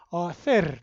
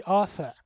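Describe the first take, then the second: First: Arthur with the final R clearly pronounced; Germanic rolled R. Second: Arthur with the R sounds dropped, non-rhotic; English way, no R. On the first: Lecturer shows her name the Afrikaans way, final R sounded. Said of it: "If you pronounce it in a more, uh, Germanic way". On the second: Lecturer shows students her name the English way, R silent. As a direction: say Arthur the English way, no R heard at all. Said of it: "how my name is pronounced in the English way". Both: Shown as a demonstration.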